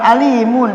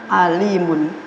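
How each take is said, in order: First: The word starts with a plain vowel onset. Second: The word starts with a throaty ain sound. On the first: It means painful torment. The speaker calls it wrong. "bukan alimun" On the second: It means a knowledgeable person. The speaker calls it right. "tapi nah alimun"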